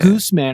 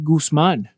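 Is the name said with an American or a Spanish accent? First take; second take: American; Spanish. First: The name is said with American English pronunciation. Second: The name is said with Spanish pronunciation. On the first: "then I'm in U S and everyone's like" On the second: "your name is actually Guzman in Spanish"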